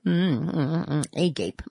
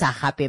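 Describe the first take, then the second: First: The word has an English-style pronunciation. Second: The word has a Greek-style pronunciation. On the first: "or am I going to pronounce it in English?" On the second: "the Greeks, you know, they also had their own accent"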